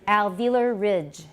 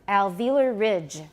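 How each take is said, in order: No difference in how they are said.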